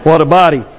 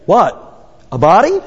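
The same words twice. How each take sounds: First: It is said as one smooth exclamation. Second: It is split into two short rising questions. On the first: The body is admired. "you think to yourself, what a body" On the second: The body is doubted and mocked. "you'll change that tune. Instead of saying, what a body, you'll be saying"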